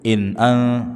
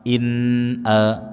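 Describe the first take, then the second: First: The n is hurried into the next vowel. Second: The n is pronounced clearly and steadily. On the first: The speaker calls it wrong. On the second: The speaker calls it right. "huruf nun dibaca dengan jelas bunyinya"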